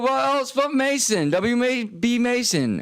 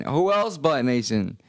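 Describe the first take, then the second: First: High, slow sung ad jingle; sung, belt out the office supply jingle; jingle sing. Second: Said in the usual way. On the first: Pretend. Singing the W B Mason jingle.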